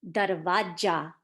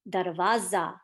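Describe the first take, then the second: First: The consonant before the last vowel is a j. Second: The consonant before the last vowel is a z. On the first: The speaker calls it wrong. "Instead of a z sound, it's a j sound. Now, darwaja is not correct" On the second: The speaker calls it right. "the correct pronunciation is darwaza, like z, like zebra"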